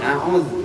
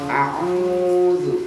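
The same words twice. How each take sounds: First: The vowel is cut short. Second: The vowel is held long. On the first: The speaker calls it wrong. "Jangan a'udzu" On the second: The speaker calls it right. "A'udzu nya panjangin"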